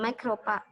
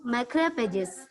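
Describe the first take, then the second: First: The word ends without the final 'ges' syllable. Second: The word ends with the 'ges' syllable sounded. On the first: The speaker calls it wrong. "bukan macrophag" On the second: The speaker calls it right. "tetap dibaca G, GES-nya, tetap bunyi"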